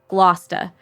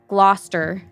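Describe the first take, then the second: First: It is said in a Massachusetts accent. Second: It is said without a Massachusetts accent. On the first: "a really terrible Massachusetts accent" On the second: "if you do not have a, a an accent from Mass"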